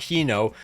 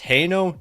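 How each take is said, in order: First: The first syllable sounds like 'he'. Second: The first syllable sounds like 'hay'. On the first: The speaker calls it wrong. "not he no" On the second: The speaker calls it right. "It's hey no"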